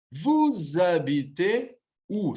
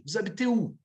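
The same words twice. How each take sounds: First: "Vous habitez où" drawn out slowly; slow model pronunciation. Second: Said in the usual way. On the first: Shown as a demonstration. Teacher showing another form of the question, slow and deliberate. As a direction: say "Vous habitez où" at half speed, syllable by syllable.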